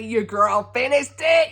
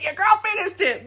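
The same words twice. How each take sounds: First: Said in the usual way. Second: Put-on high, triumphant repeat with stress on girl; your girl, said with a triumphant lift on girl; proud brag. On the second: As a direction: crow it higher the second time. Proud announcement, said twice.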